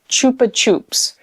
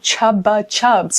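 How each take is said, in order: First: The consonants are said as a voiceless p. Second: The consonants are said as a voiced b. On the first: The speaker calls it right. "it's a P" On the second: The speaker calls it wrong. "like with a B"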